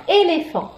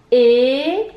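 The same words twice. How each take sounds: First: Said in the usual way. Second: "Éléphant" as long é, lé, phant with long pauses; syllable by syllable. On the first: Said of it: "Combien y a-t-il de syllabes dans". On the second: Shown as a demonstration. Teacher showing three syllables, "Éléphant" slowly split as é, lé, phant. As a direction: stretch and separate three beats of "Éléphant". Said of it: "Trois syllabes dans éléphant".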